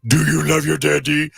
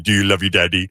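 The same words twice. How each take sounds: First: Put-on higher cooing baby talk; baby talk to pet. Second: Put-on baby talk to pet. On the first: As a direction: coo up at the dog. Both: Shown as a demonstration. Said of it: "That's how I talk to Josie".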